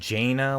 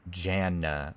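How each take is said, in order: First: The first vowel sounds like in 'Jane'. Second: The first vowel sounds like in 'Jan'. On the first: "like the Frost Mage Jaina" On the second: "like Janet"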